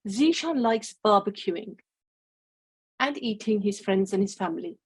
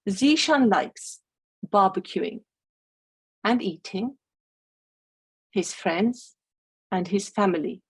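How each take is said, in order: First: There is a pause after barbecuing. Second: There is a pause after eating. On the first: He likes barbecuing and also eating his friends and family. The speaker calls it wrong. "We get an understanding that Zishan likes to barbecue, but he also likes to eat his friends and his family" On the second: He likes barbecuing and eating, and he likes his friends and family. The speaker calls it right. "And that is more what we've just learned about Zishan"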